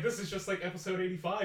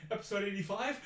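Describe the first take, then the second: First: Said in the usual way. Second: Pitched-up, alarmed echo question; rising alarm. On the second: Retold or imitated. Actor recognises the fatal episode, rising alarm. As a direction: imitate dawning panic, ending on a rise. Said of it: "like, a freaking panic attack".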